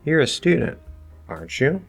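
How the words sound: The voice rises at the end of the tag. The speaker wants the listener to confirm or answer. "I throw it up to you and I want you to give me the answer"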